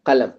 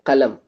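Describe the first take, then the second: No difference in how they are said.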